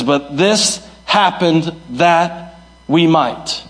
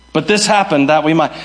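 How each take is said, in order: First: Slow, weighty, every word set apart; slow emphatic reading. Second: Said in the usual way. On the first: Shown as a demonstration. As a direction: lay the verse down slowly and deliberately. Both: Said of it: "And Paul switches and he says".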